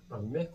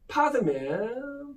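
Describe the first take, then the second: First: It is said as two syllables, ban-mae. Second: It is said as three syllables, pa-deu-mae. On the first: It is the form changed through Chinese. The speaker calls it wrong. "반매가 아니라" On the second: It is the original Sanskrit form. The speaker calls it right. "파드맨 이런 식으로 발음을 해야 된다"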